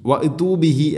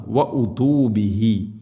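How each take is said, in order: First: വ ഉതു ബിഹി with ഉ said as ഇ; common mistake. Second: വ ഉതു ബിഹി with a rounded ഉ, slow; correct damma. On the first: Teacher showing the common error. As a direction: say വ ഇതു the wrong way. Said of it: "അധികം ആളുകളും പറയും". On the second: Teacher giving the correct damma. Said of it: "ഹംസക്ക് ضم-ആണ്". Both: Shown as a demonstration.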